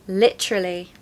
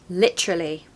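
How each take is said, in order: The two takes are said the same way.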